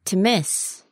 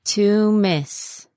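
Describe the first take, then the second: First: Said in the usual way. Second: "To miss" with both words stretched; slow word model. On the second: Shown as a demonstration. Teacher modelling "To miss" for learners, slowly. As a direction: draw out "To miss" carefully.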